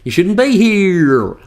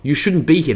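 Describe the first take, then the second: First: It is said with an odd, wavering pitch. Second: It is said in an ordinary, even voice. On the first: "it's the way that we're saying it. ... a fluctuation in the way that our voice is normally meant to sound" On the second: "it's not the quote you shouldn't be here. That means nothing by itself"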